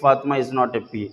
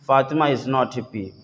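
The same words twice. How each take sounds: First: It is read at a faster pace. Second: It is read at a slower pace.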